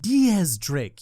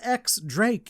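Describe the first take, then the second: First: The first part is said as dee-az. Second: The first part is said as the letter ex. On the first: The speaker calls it right. "It's pronounced Diaz Drake" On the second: The speaker calls it wrong. "Mister X Drake, is it?"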